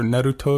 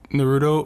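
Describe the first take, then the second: First: The name is said with a Japanese pronunciation. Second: The name is said with an English pronunciation.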